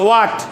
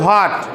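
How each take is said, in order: First: It begins with a plain W sound. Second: It begins with an H before the W. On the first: This is the British pronunciation. The speaker calls it right. "এটা British উচ্চারণ" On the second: This is how local speakers usually say it. The speaker calls it wrong. "আমরা বলি ... ওইভাবে হবে না"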